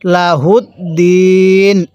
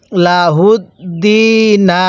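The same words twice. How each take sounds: First: Very slow লাহুদ্দিন, long দি closing on N; waqf stop. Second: লা হুদ দি না with long দি and open final না; unstopped recitation. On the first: Teacher shows how to pause here, drawn-out waqf recitation. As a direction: stretch the last vowel of লাহুদ্দিন and stop on N. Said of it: "এখানে ওয়াকফ করলে কিভাবে পড়ব?". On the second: Teacher builds the word for students, recitation without a stop. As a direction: recite লা হুদ দি না, sounding the last vowel. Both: Shown as a demonstration.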